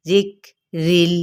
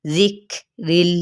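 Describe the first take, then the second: First: जिक्रिल slow again, काफ breathy without qalqala; hams demo repeated. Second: जिक्रिल slow, काफ breathed with no bounce; hams demo. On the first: Teacher repeats जिक्रिल slowly for the class. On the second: Teacher models the sound in जिक्रिल for students. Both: Shown as a demonstration. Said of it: "ये वाली sound होती है".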